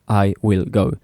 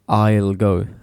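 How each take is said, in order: First: The word 'will' is said in full. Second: The word 'will' is shortened to an L sound. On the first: The speaker calls it wrong. "people don't say I will go" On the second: The speaker calls it right. "They say I'll"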